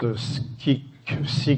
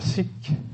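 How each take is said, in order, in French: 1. Un son k vient avant le i. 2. Aucun son k ne vient avant le i.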